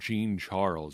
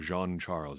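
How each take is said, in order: First: The name is pronounced with English sounds. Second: The name is pronounced with French sounds.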